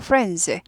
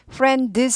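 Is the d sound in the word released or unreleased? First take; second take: unreleased; released. First: The d sound is held without a pop. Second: The d sound is released with a pop. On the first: The speaker calls it right. "드는 발음은 해주고 이 모양은 해주는데 튀지 않는다" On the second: The speaker calls it wrong. "friends 하지 않고"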